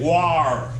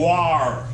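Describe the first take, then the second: First: Said the Midwestern way, sounding like war. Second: The same.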